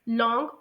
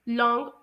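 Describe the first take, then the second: The two takes are said the same way.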